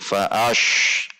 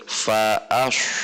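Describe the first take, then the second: First: The s sound drifts toward an sh sound. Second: The s sound is made with rounded lips. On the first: "jangan sampai lari ke shin" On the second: "dengan membulatkan bibir"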